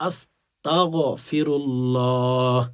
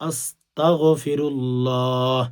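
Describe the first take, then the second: The two takes are said the same way.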